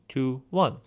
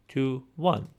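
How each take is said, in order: No difference in how they are said.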